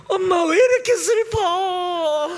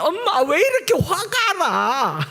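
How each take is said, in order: First: Put-on high, drawn-out childlike whine; slow pretend wailing, pitched way up; mock sad wail. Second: High, drawn-out comic complaint; mock angry whine. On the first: Preacher shows a child being joyful while sad, mock wailing. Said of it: "슬플 때도 기뻐해야지". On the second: Preacher as child angry after a fight, comic mock anger. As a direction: pretend fury as a slow, high childlike wail. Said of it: "막 싸워서 화가 나는".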